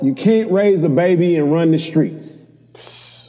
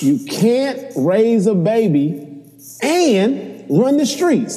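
First: It is read out in a plain voice. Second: It is proclaimed like an old preacher.

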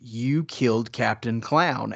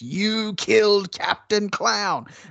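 First: It sounds disbelieving and stunned. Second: It sounds wild and frenzied. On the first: "It's his incredulous" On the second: "he repeats it in that manic voice"

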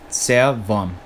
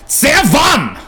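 First: The word is said softly and calmly. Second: The word is said sharply with angry force. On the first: "very soft for German" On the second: "if you sound angry or if you use angry inflection"

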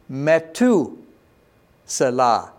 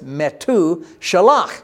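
First: The middle consonant is an s sound. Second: The middle consonant is an sh sound. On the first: "It's pronounced as just a hard T. So it'd be Methuselah" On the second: "the Salah was Shalach. So it's Methuselah"

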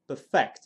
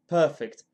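First: The stress is on the second syllable. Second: The stress is on the first syllable. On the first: It is the verb meaning to make flawless. The speaker calls it wrong. "perfect would be a verb" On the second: It is the adjective meaning flawless. The speaker calls it right. "Perfect is the adjective"

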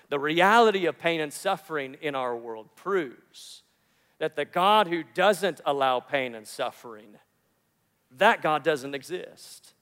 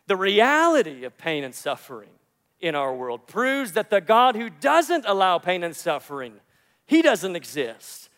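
First: It is said slowly. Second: It is said at normal speed.

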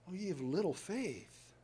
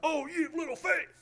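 First: It is said in a gentle, affectionate tone. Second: It is said in a harsh, scolding tone.

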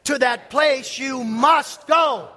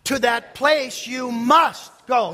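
First: Both must and go carry stress. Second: The word must carries the stress. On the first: "Say it with the emphasis on must and go" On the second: "say with the emphasis on must"

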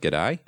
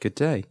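First: It is said in an Australian accent. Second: It is said without any put-on accent. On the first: "If I'd have said it, I'd have been like" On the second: "Didn't say it with an accent"

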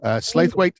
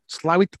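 First: The name is said in a standard pronunciation. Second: The name is said in the local pronunciation.

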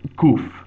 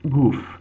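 First: It starts with a deep guttural K sound. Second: It starts with a G sound. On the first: "You pronounce it kuf" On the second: "pronounce this as even a G sound"

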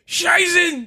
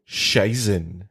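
First: It is shouted like a fighting-game cry. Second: It is said plainly, as a name.

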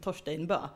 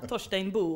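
First: The name ends with an ö vowel. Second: The name ends with an o vowel. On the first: The speaker calls it wrong. "och inte Torsteinbö" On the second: The speaker calls it right. "vi ska säga Torsteinbo"

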